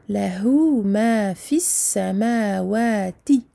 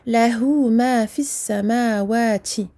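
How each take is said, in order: First: The t sound is clean with nothing added. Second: The t sound carries an extra added sound. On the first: The speaker calls it right. "nous dirons plutôt" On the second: The speaker calls it wrong. "nous ne dirons pas ... C'est faux. La lettre ta n'est pas complètement dans son point de sortie"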